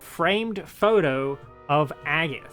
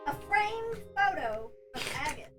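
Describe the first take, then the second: First: It is said in a plain, ordinary way. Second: It is said in a dramatic, showy way.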